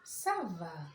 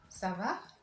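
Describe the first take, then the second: First: The voice falls at the end, as an answer. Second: The voice rises at the end, as a question.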